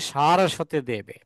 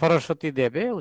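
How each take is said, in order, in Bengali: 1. নামটি দীর্ঘ স্বর দিয়ে শুরু। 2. নামটি হ্রস্ব স্বর দিয়ে শুরু। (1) "এটা উচ্চারণ হবে নমস্তে সারস্বতে দেবে" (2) "অনেকে বলে সরস্বতী দেবে, উচ্চারণ ভুল আছে"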